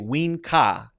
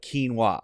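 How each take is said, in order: First: The W sound comes first, the K sound after. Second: The K sound comes first, the W sound after. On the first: The speaker calls it wrong. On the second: The speaker calls it right.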